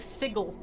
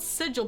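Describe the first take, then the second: First: The g is hard, like in go. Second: The g is soft, like a j. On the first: The speaker calls it wrong. "he's saying sigil. It's not a hard G" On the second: The speaker calls it right. "it's spelled sigil"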